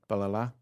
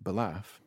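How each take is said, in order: First: The name ends with a vowel sound. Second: The name ends with an f sound. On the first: The speaker calls it right. "That's how you pronounce it" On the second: The speaker calls it wrong. "That's not how you say that word"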